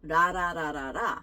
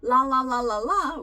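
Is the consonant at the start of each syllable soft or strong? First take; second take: soft; strong. First: Each syllable starts with a soft, light tap. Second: Each syllable starts with a strong, clear L. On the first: "in Korean is a little softer" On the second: "with an L, ... a little stronger sounds"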